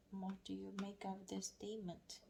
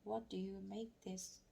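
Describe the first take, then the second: First: Softer whispered reread of the question. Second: Said in the usual way. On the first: Shown as a demonstration. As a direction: whisper it to yourself while reading.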